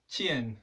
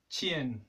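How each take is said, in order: Both takes have the same delivery.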